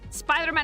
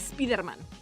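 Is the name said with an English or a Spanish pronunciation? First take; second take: English; Spanish. First: The name is said with English pronunciation. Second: The name is said with Spanish pronunciation. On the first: "Spider-Man is" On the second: "You say it as you read it"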